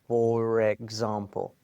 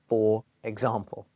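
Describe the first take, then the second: First: The r blends straight into example. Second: The two words are said separately.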